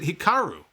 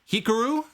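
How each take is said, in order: First: The name is said without the Pikachu-like rhythm. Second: The name is said with a Pikachu-like rhythm.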